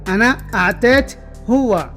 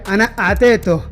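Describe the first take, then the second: First: The phrase ends with a full final syllable. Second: The phrase ends with a shortened final syllable. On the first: "आप बोले अना आतेत हुआ" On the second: "shortcut में इस तरह बोला जाता है"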